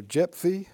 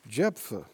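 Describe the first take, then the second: First: "Jephthah" ending in a long "-thee"; alternative pronunciation. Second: "Jephthah" ending in a relaxed "-thuh"; pronunciation variant. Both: Shown as a demonstration. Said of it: "you pronounce it a different way".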